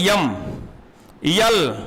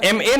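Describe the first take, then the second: First: The letter names begin with a y sound. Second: The letter names begin with a plain vowel. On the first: The speaker calls it wrong. "अब ये ये पढ़ोगे तो hundred percent आप गलत कर जाओगे" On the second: The speaker calls it right. "एम ए नहीं पढ़ाया जाता था"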